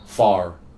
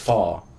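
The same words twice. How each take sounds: First: The final R sound is pronounced. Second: The final R sound is dropped. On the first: "if you guys say far, you'll say far" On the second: "We don't pronounce the R, it's far"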